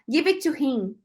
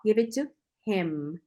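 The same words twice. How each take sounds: First: The final M is nasal with the lips open. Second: The final M is said with the lips closed. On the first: The speaker calls it wrong. "muita gente fala" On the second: The speaker calls it right. "Mas, ó"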